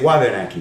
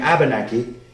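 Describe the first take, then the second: First: The word begins with a W sound. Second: The word begins with a vowel sound. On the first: This is the form used in Maine. "with the W still preserved" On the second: This is the form used locally here. "the W disappeared"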